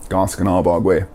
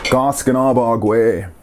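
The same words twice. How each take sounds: First: Said in the usual way. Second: Goskanabagwe drawn out slowly for learners; slow word model. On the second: Shown as a demonstration. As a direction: stretch out Goskanabagwe, unhurried. Teacher models the new word slowly.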